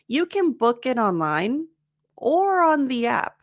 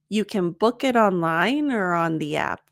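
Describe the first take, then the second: First: There is a pause between 'online' and 'or'. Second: 'Online' links straight into 'or' without pausing.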